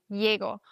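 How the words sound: The first consonant is a 'y' sound. This is how it is said in Madrid. "das offizielle Castellano aus Madrid ... da sagt man Llego"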